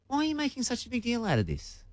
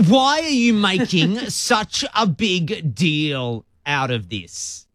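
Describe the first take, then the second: First: It sounds genuinely curious. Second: It sounds dismissive and annoyed.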